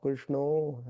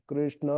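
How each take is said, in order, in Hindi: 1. शब्द 'o' ध्वनि पर खत्म होता है। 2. शब्द 'a' ध्वनि पर खत्म होता है।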